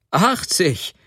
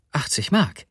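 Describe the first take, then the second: First: High-pitched cry on a falling tune; amused exclamation. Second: Said in the usual way. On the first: A narrator's reading. Sobotka hearing what his wife paid, amused outcry. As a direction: call it out in amused disbelief. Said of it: "rief Sobotka lachend".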